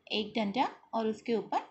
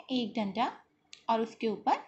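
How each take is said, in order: Both takes have the same delivery.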